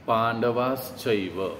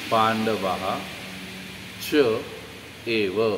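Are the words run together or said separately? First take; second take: run together; separately. First: The words are fused into one word. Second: The words are said as separate words. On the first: "इसका संधि कैसे होता है"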